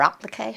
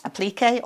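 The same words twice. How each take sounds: First: "applique" said as AP-luh-kay; alternative pronunciation. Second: "Applique" said as uh-PLEE-kay; alternative pronunciation. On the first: Presenter offering viewers her other way to say the craft term, "applique" as AP-luh-kay. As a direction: stress the first syllable of "applique", with a short a. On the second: Presenter offering viewers another way to say the craft term, "Applique" as uh-PLEE-kay. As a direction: stress the second syllable of "Applique", with a long ee. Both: Shown as a demonstration. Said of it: "however one pronounces it".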